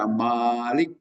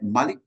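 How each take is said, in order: First: The first vowel is held long. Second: The first vowel is short. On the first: It means the one who owns everything. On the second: It means king.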